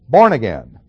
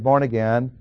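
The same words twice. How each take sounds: First: The stress falls on the first word. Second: The stress falls on the second word. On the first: "Emphasis on the first word" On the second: "we don't say born again"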